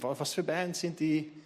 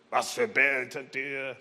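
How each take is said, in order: First: The question sounds friendly and curious. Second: The question sounds harsh and angry. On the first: The asker genuinely wants to know. The speaker calls it right. "Sondern zeige Interesse" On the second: The asker disapproves of the music. The speaker calls it wrong. "Aber nicht so böse"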